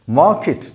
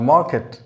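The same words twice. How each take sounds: First: "Market" with a short I in -ket; correct pronunciation. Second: "market" with a full E in -ket; wrong pronunciation. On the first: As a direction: say "Market" as MAH-kit. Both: Shown as a demonstration. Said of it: "not market".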